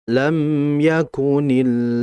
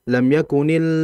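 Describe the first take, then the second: First: The m sound is held briefly before continuing. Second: The m sound is rushed without a hold. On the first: The speaker calls it right. "Ditahan dulu" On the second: The speaker calls it wrong. "Kalau lam yakunil itu terlalu cepat"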